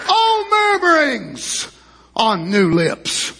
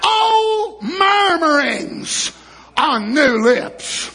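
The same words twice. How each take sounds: First: Slow lament. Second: Drawn out with a laugh in the voice; slower, half-laughing lament. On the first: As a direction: let the words sink mournfully. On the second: Preacher repeating the line, drawn out with a rueful laugh. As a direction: stretch it, half crying half laughing. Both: Shown as a demonstration.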